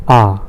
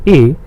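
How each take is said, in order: First: A said as open "ah"; A as the German letter name, falling "ah". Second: A said as English "ay"; A as the English letter name, "ay". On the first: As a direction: say A the German way, a long "ah". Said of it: "in German". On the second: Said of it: "as we say it in English". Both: Shown as a demonstration.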